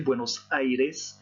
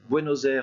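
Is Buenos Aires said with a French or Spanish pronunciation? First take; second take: Spanish; French. First: It is said with a Spanish pronunciation. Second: It is said with a French pronunciation. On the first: "en espagnol. N'oubliez pas de prononcer le i" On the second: "en français"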